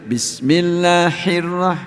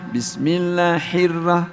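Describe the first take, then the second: The two takes are said the same way.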